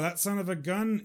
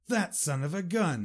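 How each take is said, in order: First: The tone sounds casual and matter-of-fact. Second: The tone sounds admiring and pleased. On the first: The speaker has no strong feeling about the person. "That's neutral, you know, it's not positive, not negative" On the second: The speaker admires the person. "And that's a positive way"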